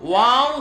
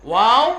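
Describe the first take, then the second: No difference in how they are said.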